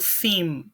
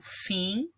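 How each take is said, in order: First: It ends with a closed M sound. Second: It ends in a nasal vowel without an M. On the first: The speaker calls it wrong. "Vejam que eu não falo" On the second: The speaker calls it right. "Ele fica assim com um som nasal"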